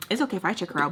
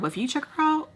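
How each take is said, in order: First: "I" set against "you", said evenly; stress on I. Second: "you" pitched up high against "I"; stress on YOU. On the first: Girlfriend allowing herself to look, even stress on "I". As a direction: keep it easy, light weight on "I". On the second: Girlfriend warning her boyfriend, high stress on "you". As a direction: jump up on "you" as the contrast. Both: Shown as a demonstration. Double standard, I versus you.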